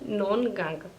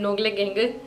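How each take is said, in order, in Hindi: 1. g छोड़ दिया जाता है, तो बनता है 'non gong'। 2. हर अक्षर बोला जाता है, g भी। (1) "आपको कहना है नॉन गांग" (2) "लेकिन नोगले गेंगे नहीं कहना है"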